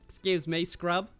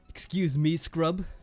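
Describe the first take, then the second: First: It is said in an Australian accent. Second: It is said without an Australian accent.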